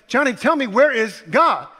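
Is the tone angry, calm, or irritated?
irritated. It is asked in a slightly irritated voice.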